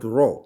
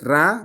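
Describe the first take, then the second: First: The vowel is darkened toward an o. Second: The vowel is a plain open a. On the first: The speaker calls it right. "we make it sound like an O" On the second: The speaker calls it wrong. "Not Ra"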